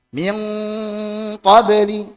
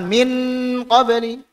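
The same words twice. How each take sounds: First: The n is nasalized and merged toward the q. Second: The n is pronounced clearly and separately. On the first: The speaker calls it right. "Kita lebih masukkan ke qaf maupun kaf" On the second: The speaker calls it wrong. "Jangan sampai dibaca izhar gitu. Jangan"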